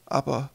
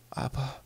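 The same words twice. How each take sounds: First: High, voiced storyteller mother; mother's storytelling voice. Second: Put-on soft whisper from a spellbound child. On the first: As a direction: pitch it up as the mother telling her tale. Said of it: "sagte Spelda". (hohe Erzählstimme der Mutter) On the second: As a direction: whisper it under the breath. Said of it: "flüsterte er leise". (leise geflüstert) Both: A narrator's reading.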